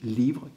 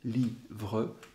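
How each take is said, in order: First: The word is said in one syllable. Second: The word is said in two syllables. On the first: "cette syllabe unique" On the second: "deux syllabes successives"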